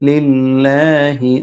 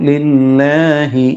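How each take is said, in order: The two takes are said the same way.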